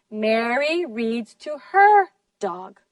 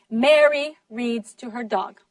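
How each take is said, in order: First: Slower, with main stress on "her". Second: "Mary" carries the main stress, the rest falling away. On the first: Teacher corrects whose dog it was, stressing "her". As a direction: lean hard on "her" before "dog". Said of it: "you stress her". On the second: Teacher corrects who was reading, stressing "Mary". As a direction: punch "Mary" at the start. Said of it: "ustedes acentuaron Mary". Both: Shown as a demonstration.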